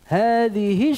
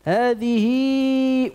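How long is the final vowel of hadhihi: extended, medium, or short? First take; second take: short; extended. First: The final vowel is short with no lengthening. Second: The final vowel is lengthened well beyond two counts. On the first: "Dalam keadaan wasal tidak ada silahnya" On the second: "dalam keadaan wasal dibaca dengan silah kubra"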